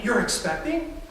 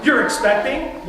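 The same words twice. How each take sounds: First: Rising disbelief on You're expecting; questioning rise. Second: You're expecting thrown out higher and louder; excited disbelief. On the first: Pastor demonstrating a question to his congregation, rising tune. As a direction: ask You're expecting with a lifted questioning end. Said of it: "A declarative question with an interrobang would be". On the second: Parent hearing of a first grandchild, excited disbelief. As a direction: exclaim You're expecting like happy news just hit. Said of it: "in a very excited, declarative kind of way". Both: Shown as a demonstration.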